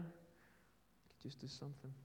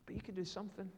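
First: Slow, breathless whisper. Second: Said in the usual way. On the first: Acted. Preacher urging the congregation, slow whisper. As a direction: drop to a slow hush to land it. Sermon challenge, repeated as hush.

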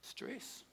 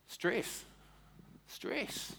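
First: The word stress breathed as a whisper. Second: Stress, then whispered stress; fading stress. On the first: Preacher whispering stress to congregation, hushed. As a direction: hush it out. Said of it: "repeated word stress". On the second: Preacher repeating stress to congregation, fading to whisper. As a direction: let the word die to a whisper. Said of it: "repeats stress softer each time". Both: Acted.

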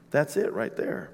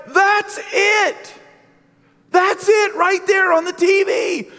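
First: Whispered "that's it right there", soft and breathless; hushed whisper. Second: High, loud, frantic shout; shouting to wife. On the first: Real, not acted. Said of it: "And it's like, yeah". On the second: Retold or imitated. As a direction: yell it at the TV in alarm. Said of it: "and I told my wife".

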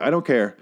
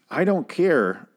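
First: Said in the usual way. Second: "I don't care" pitched higher in a strange put-on voice; odd put-on voice. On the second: Real, not acted. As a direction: slip into a weird voice on "I don't care". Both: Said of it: "I don't know why I said it like that".

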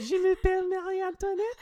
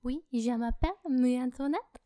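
First: Very high, loud falsetto French voice; hammed-up falsetto French accent; squeaky French girl voice. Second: Mock French accent, a bit louder; hammed-up French girl voice. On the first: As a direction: squeak it like a tiny French princess. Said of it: "That's how you do it?". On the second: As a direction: put on a cartoon French accent as Marie Antoinette. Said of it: "do the Amélie voice but with a French accent".

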